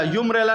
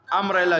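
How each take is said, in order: First: यूम्ब्रेला with a "yoo" sound at the start; teacher mocks the wrong reading यूम्ब्रेला; wrong pronunciation. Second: अम्ब्रेला said with an open "a" at the start; teacher models अम्ब्रेला with an "uh" sound first; right pronunciation. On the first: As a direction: say यूम्ब्रेला as "yoom-brella" to show the mistake. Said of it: "नहीं पढ़ रहे हैं". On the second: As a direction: say अम्ब्रेला as "um-brella", not "yoom". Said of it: "यूम्ब्रेला नहीं पढ़ रहे हैं". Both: Shown as a demonstration.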